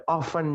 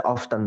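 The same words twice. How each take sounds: First: "often" as "off-en", no T; often without T. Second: "often" as "off-ten". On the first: Teacher giving the other option, often as "off-en". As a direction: silent T in "often". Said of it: "often juga boleh". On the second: Teacher explaining the option, often as "off-ten". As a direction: pronounce the T in "often". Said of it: "T-nya dibaca often boleh". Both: Shown as a demonstration.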